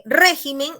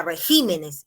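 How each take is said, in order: First: "régimen" stressed on the first syllable. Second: "regímenes" stressed on the second syllable. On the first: Teacher shows the singular, stressing RÉ in "régimen". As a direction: hit the RÉ at the start of "régimen". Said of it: "la sílaba tónica está en re". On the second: Teacher shows stress moving in plural, GÍ in "regímenes". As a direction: move the beat onto GÍ in "regímenes". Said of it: "puede haber ese traslado de la sílaba tónica". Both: Shown as a demonstration.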